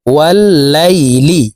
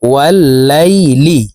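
First: wall Laili chanted slowly with a doubled ল; sung, recite wall Laili as in tajweed; sung, recited. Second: wall Laili joined slowly, syllable by syllable; slow spelled blend. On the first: Teacher recites the joined word for learners, slow chant. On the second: Teacher joins the letters for learners, slow and plain. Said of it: "লাম জের লি". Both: Shown as a demonstration.

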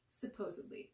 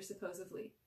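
First: "Supposedly" said clearly with a d, "suh-POSE-ud-lee"; corrected pronunciation. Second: "supposedly" said as "suh-POSE-uv-lee"; mispronounced. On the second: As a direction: put a v in place of the d in "supposedly". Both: A narrator's reading. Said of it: "Sam corrected".

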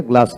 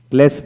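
First: গ্লাস with open "aa", "glaas"; preferred pronunciation. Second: গ্লাস with front "e", "glaes"; rejected pronunciation. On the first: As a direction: say গ্লাস with a long "ah". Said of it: "গ্লাস বলি". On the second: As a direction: say গ্লাস as "gless". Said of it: "গ্লাস বলি না". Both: Shown as a demonstration.

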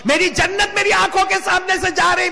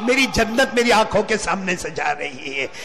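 First: High, sustained wailing proclamation; anguished cry. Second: Subdued lament. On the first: Grieving son watching his paradise leave, anguished cry. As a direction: cry the grief out at full pitch. Same line repeated as cry. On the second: Grieving son watching his paradise leave, subdued lament. Grieving line, dropped then repeated high. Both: Acted.

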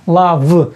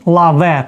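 First: "лав" said as one syllable with no final vowel; "лав" said the right way, like English love; correct pronunciation. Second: "лаве" read as spelled, with a final е; "лаве" said the wrong way, as it is written; spelling-based reading. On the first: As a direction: show that "лав" ends on the в sound. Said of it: "це слово як лав". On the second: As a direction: sound out "лаве" letter by letter. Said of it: "Але ми вимовляємо про цю, це слово як лав". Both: Shown as a demonstration.

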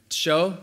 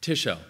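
First: Tsho as one syllable, no vowel between t and sh; stressless devoiced syllable. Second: Tisho in two syllables, stress on a clear TI; promoted stressed syllable. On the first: Lecturer showing the devoiced form, tsho run together. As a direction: squeeze tsho into a single stressed beat. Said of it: "where a syllable is completely stressless". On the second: Lecturer showing question-final promotion, TI stressed in tisho. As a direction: sound the vowel in tisho and stress TI. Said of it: "promoted to primary stress in question final position". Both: Shown as a demonstration.

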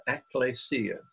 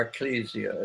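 First: "ecclesia" as ek-lay-SEE-a, with an AY; pronunciation contrast. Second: "ecclesia" as ek-KLEE-zee-a, with an EE; alternative pronunciation. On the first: Preacher swapping the word church for Greek, "ecclesia" said ek-lay-see-a. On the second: Preacher showing how some pronounce it, "ecclesia" said e-klee-zee-a. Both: Shown as a demonstration. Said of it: "as some like to pronounce it".

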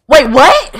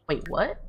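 First: Loud, high exclamation; shocked double take. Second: Soft, puzzled double take; quiet confusion. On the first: Player seeing who showed up, loud shock. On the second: Player reading invitation to the crater, quietly puzzled. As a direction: say it softly, not yet believing. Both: Real, not acted.

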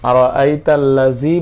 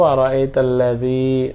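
First: আরাআইতাল্লাযী ending in a buzzing "zee"; wrong hard z. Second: আরাআইতাল্লাযী with a soft "dhee", tongue between teeth; soft dhal. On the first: Teacher showing what we don't say, buzzing z in আরাআইতাল্লাযী. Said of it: "বলবো না". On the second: Teacher giving the correct form, soft dhal in আরাআইতাল্লাযী. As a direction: soften যী in আরাআইতাল্লাযী to a th as in "this". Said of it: "আমরা বলবো আরাআইতাল্লাযী". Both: Shown as a demonstration.

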